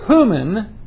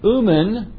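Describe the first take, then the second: First: The word starts with an h sound. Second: The word starts with a vowel, no h. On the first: The speaker calls it right. "that rough breathing pronounces it human" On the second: The speaker calls it wrong. "instead of saying umen, which we would normally pronounce it"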